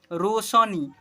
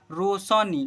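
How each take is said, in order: Both takes have the same delivery.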